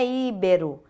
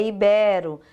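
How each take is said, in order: First: Íbero stressed on the first syllable, Í; wrong prosody. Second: Ibero stressed on the middle syllable, BE; correct prosody. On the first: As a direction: punch the opening i of íbero. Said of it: "não é íbero". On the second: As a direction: land firmly on BE in ibero. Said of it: "é ibero". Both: Shown as a demonstration.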